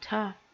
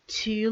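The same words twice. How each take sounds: First: The vowel is reduced to a schwa. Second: The vowel is full and clear.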